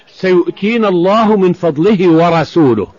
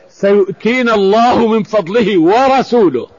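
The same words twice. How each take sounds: First: Said in the usual way. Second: ورسوله slowed and weighted at the end; stress on ورسوله. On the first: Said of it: "عطف رسوله على الله بالواو". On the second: Shown as a demonstration. Teacher shows listeners the added ورسوله, stressed. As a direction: lean hard on the word ورسوله. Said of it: "ما، آه، الرسول".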